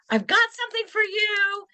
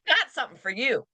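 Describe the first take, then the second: First: It is said in a happy, excited tone. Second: It is said in a cold, menacing tone. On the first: Good news has arrived. "I've got a binding contract. Woohoo" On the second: A threat is being made. "That's a completely different meaning"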